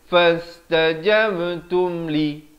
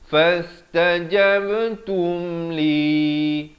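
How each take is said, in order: First: The final vowel of li is cut short. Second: The final vowel of li is held long. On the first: The speaker calls it wrong. "jangan waqaf dengan fastajabtum li" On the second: The speaker calls it right. "begitulah waqafnya"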